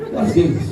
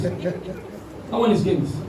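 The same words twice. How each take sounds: First: Said in the usual way. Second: Slow, drawn-out. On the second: Shown as a demonstration. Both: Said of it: "I said that's games".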